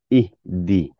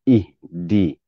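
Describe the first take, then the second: The two takes are said the same way.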